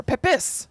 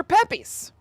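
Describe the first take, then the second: First: PEP-iss, short i in the second syllable; Pepys as PEP-iss. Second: PEP-ees, long ee in the second syllable; Pepys as PEP-ees. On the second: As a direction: say Pepys to rhyme with peppies. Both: Shown as a demonstration. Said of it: "Or Pepys".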